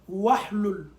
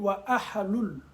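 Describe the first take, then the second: First: The syllables run together with no separate vowel. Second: The syllables are split with an extra vowel. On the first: "Tu peux faire la liaison" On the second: "Comme on peut dire wa ahalul"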